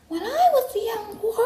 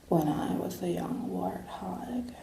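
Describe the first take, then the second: First: It is said in a high register. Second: It is said in a sensuous, sexy voice.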